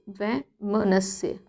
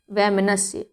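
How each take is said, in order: First: वैमनस्य drawn out very slowly and softly, syllable by syllable; slow spelled-out word. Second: Said in the usual way. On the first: Shown as a demonstration. Teacher models वैमनस्य for students, slow and soft. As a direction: stretch वैमनस्य slowly for the class. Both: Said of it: "ता इसमें अनावश्यक रूप से प्रयोग किया गया है".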